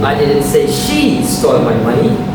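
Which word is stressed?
she. The stress falls on the word she. Someone else took the money. "Someone else did"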